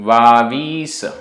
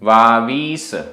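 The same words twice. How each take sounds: The two takes are said the same way.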